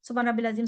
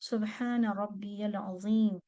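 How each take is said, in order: First: The middle word is said as 'rabbil'. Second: The middle word is said as 'rabbiyal'. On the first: The speaker calls it wrong. "ऐसे नहीं पढ़ेंगे" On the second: The speaker calls it right. "कैसे पढ़ेंगे?"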